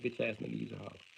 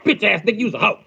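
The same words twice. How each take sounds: First: It is said softly, with little impact. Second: It is said forcefully, with strong impact. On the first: The insult carries less weight. The speaker calls it wrong. "it wouldn't have the same impact" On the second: The insult is meant seriously. The speaker calls it right. "I mean that. I truly do"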